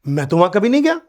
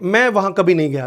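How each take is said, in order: First: It is said excitedly, with surprise. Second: It is said in a relaxed tone.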